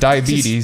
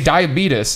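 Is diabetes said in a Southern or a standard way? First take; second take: standard; Southern. First: The word is said with a standard pronunciation. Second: The word is said with a Southern pronunciation. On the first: The speaker calls it right. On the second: The speaker calls it wrong.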